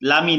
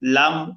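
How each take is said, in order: First: A short 'i' vowel is added after the consonant. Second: The word ends on a held consonant, no vowel. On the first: The speaker calls it wrong. "অনেকে ভুল করে লামি বলে" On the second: The speaker calls it right. "লাম, লামি না"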